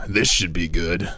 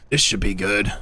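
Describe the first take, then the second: First: First try, pitched low; low-pitched game voice. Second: A slightly higher take on the unit line; higher-pitched game voice. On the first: Streamer trying a vulture line, too low at first. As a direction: deliver the unit line low and easy. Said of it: "Wait, he's higher pitched". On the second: Streamer correcting his vulture impression, slightly higher pitched. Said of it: "he's higher pitched". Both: Acted.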